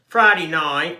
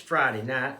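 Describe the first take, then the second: First: It is said in a Kentucky accent. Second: It is said in a standard American accent.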